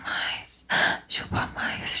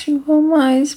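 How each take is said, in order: First: Soft unvoiced whisper. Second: Said in the usual way. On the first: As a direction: breathe the words without voice. Whispered then voiced repeat.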